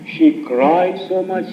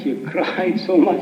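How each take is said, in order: First: Slow, drawn-out and weighty, dwelling on cried; slowed-down emphatic retelling; slow emphasis. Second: A laugh breaking into the phrase; amused retelling with a laugh inside; laughing repeat. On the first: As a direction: lean on cried and stretch every word. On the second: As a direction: repeat it, chuckling in the middle. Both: Shown as a demonstration.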